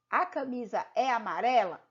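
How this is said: It is said with flat statement intonation. The speaker is affirming a fact. "quando eu digo eu estou afirmando"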